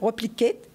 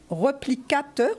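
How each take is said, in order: First: The word is pronounced the English way. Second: The word is pronounced the French way.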